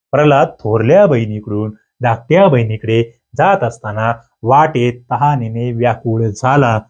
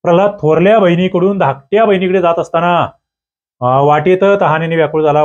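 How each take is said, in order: First: Measured dictation with gaps between phrases; deliberate model reading. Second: Said in the usual way. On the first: Shown as a demonstration. Teacher shows students the correct word order, deliberate model reading.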